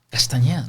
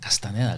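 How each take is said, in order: First: The middle consonant is an 'ny' sound. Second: The middle consonant is a plain 'n' sound. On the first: Others change the name into this form. The speaker calls it wrong. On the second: This is the name as it really is. The speaker calls it right. "Castaneda con N"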